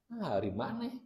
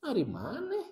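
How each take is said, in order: First: "hari maneh" said softly with a small rise; a first, half-hearted try at the line; quiet take, flat intonation. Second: "Hari maneh?" with a big high rise on "maneh"; played-up intonation. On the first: ("Nah, hari maneh?" diucapkan pelan, nada naik sedikit) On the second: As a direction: swing the tune up hard on "maneh". ("maneh" dengan nada naik tinggi, dimainkan) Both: Shown as a demonstration. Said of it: "Intonasinya harus dimainkan".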